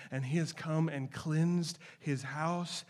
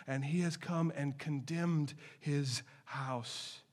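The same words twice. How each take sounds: First: Cleansed said slow and weighty; slow weighty stress. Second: Condemned said slow and heavy, falling; slow weighty stress. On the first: Preacher contrasting Jesus' two acts, stress on cleansed. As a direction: lean slowly on cleansed. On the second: Preacher contrasting Jesus' two acts, stress on condemned. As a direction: lean slowly on condemned. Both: Acted.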